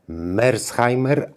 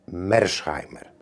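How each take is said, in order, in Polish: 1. Nazwisko wymawia się po niemiecku. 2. Nazwisko wymawia się po angielsku. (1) "Nazwisko pochodzenia niemieckiego, mówię Mersheimer" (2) "niektórzy czytają z angielska"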